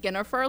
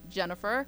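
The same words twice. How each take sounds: First: The name begins with a hard G sound. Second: The name begins with a soft J sound. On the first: The speaker calls it wrong. "I think of Jennifer, like a guinea pig" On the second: The speaker calls it right. "I guess it's pronounced more like Jennifer"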